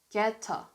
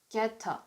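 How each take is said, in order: Both takes have the same delivery.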